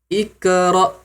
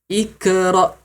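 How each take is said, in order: No difference in how they are said.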